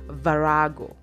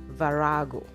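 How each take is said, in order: First: The word has English-style vowels and stress. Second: The same.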